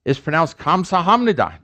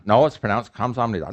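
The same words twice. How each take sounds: First: Insistent learner, "Kamsahamnida" with a clear H; arguing for H. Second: Quick counter, "Kamsamnida" with no H; arguing against H. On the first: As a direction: argue it higher, sounding the H in "Kamsahamnida". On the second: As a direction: correct them in a lower voice, dropping the H. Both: Acted. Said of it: "there's often arguments".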